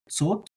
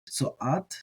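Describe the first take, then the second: First: The aleph is silent, giving a single syllable. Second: The aleph is pronounced, adding a vowel sound. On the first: "if you do the aleph as silent, it's like sot" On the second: "But if you don't treat the aleph as silent"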